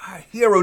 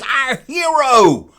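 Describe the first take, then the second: First: Said in the usual way. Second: Slow, high, loud "our hero"; grand our hero. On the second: Shown as a demonstration. Fan praising George Lucas, slow, high and loud on "our hero".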